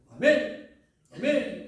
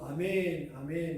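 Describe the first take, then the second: First: Each amen is said short and sharp. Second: Each amen is drawn out long.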